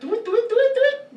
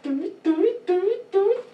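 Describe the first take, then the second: First: The sounds are said at a faster pace. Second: The sounds are said at a slower pace.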